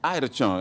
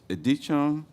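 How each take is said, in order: First: The name begins with an 'eye' sound. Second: The name begins with an 'ed' sound. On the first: The speaker calls it right. "I'm with you" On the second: The speaker calls it wrong. "did I say that correctly?"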